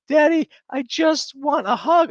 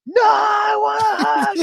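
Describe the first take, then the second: First: Put-on very high, loud little-girl plea; imitated screaming child. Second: Piercingly high, loud mock child's wail; imitated tantrum scream. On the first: Dad imitating his daughter begging for a hug, high childish wail. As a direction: whine it way up high like a child mid-meltdown. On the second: Dad imitating his daughter after being refused, screamed crying wail. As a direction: scream it like a child in full meltdown.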